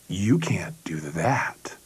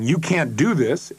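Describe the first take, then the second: First: It is said in a seductive, sexual tone. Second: It is said in a plain, critical tone.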